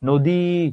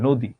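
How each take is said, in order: First: The final vowel is stretched out long. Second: The final vowel is said short and plain. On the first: The speaker calls it wrong. "এইভাবে কেউ বীণা, নদী, দিঘি, মিন এভাবে তো আমরা কেউ কথা বলি না" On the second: The speaker calls it right. "ই একভাবে"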